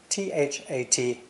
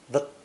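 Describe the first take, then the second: First: The word is said with its full vowel. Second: The word is said weakly with a reduced vowel.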